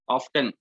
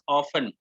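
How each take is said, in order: First: The word is said with a T sound. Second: The word is said without a T sound. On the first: The speaker calls it wrong. "sometimes there are people who say it like" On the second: The speaker calls it right. "T is silent"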